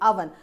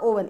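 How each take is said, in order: First: The first vowel is a short 'uh' sound. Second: The first vowel is a long 'oh' sound. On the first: The speaker calls it right. "ओ का sound अ भी होता है" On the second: The speaker calls it wrong. "जब हम ओ से इसको sound पे जाते हैं तो हम इसको ओवन बोलते हैं, विच इज इनकरेक्ट"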